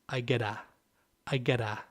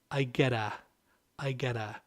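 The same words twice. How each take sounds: The two takes are said the same way.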